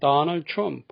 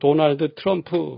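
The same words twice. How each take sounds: First: The name is said with American English sounds. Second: The name is said with Korean-style syllables. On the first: "좀 다르죠, 발음이" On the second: "우리는 보통"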